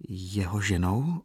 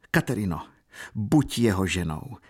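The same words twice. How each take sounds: First: Slow questioning echo, rising at the end; mechanical echo. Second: Understated fervent appeal; urgent exclamation. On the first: Girl echoing her aunt's words, a slow mechanical question. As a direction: repeat it slowly, as if automatically. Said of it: "opakovala dívka mechanicky po ní". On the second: Aunt urging her niece to marry, mildly exclaimed. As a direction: urge her, with restrained fervour. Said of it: "políbila ji téměř vášnivě a zvolala". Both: A narrator's reading.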